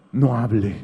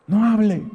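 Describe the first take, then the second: First: Said in the usual way. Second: "No hable" said again, higher and firmer; emphatic repeat. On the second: Shown as a demonstration. Preacher repeating his advice to the congregation, higher and insistent. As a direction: drive the command home a second time. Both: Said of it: "¿Sabe qué tiene que hacer?".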